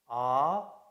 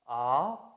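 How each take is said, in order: First: The pitch starts mid and rises. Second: The pitch starts mid and rises.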